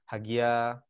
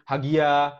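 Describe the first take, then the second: First: The name is called on a low pitch. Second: The name is called on a high pitch.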